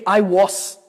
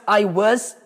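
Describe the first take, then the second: First: The vowel is a full ah, ending in s. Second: The vowel is a reduced uh, ending in z. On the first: The speaker calls it wrong. "do que I was" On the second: The speaker calls it right. "você vai ouvir mais I was"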